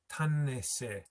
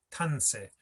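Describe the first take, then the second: First: Tanese with the short middle vowel sounded, TAN-i-se; full three syllables. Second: Tanse run together as TAN-se, no i; dropped middle syllable. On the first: Teacher showing the underlying word, all syllables of Tanese sounded. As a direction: keep the little i audible between TAN and se. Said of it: "don't hear this syllable". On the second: Teacher showing how it is heard, Tanse with i dropped. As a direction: drop the short i after a stressed TAN in Tanse. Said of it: "tan pushes over that short I". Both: Shown as a demonstration.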